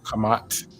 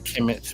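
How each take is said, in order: First: The vowels sound like 'uh'. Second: The vowels sound like 'eh'. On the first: "maybe with a U" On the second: "Instead of a kemet"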